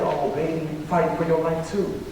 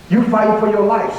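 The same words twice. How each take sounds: First: Soft, retold motherly reassurance; tender reply. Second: Urgent, insistent student protest; retold worried protest. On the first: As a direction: gently turn it back on the student. Sick teacher gently turns it back. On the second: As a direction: press the point with mild alarm. Student confronts sick teacher, she answers.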